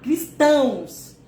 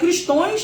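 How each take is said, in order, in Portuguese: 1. A palavra termina com som de 'ãos'. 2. A palavra termina com som de 'ões'.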